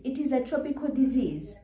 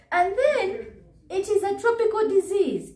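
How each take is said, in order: First: Said in the usual way. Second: Pitched way up, mocking the claim; a sing-song, mocking high retort. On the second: Vlogger mocking the doctor's claim in a high put-on voice.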